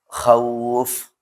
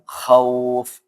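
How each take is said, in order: First: The vowel is the diphthong 'au'. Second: The vowel is a plain 'o'. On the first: The speaker calls it right. "Pakai u" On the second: The speaker calls it wrong. "bukan o"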